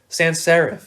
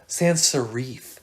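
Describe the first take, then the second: First: The f sound at the end is short. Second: The f sound at the end is held longer. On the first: The word is spelled with one f. "That's one F" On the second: The word would be spelled with two fs. "If it's two Fs"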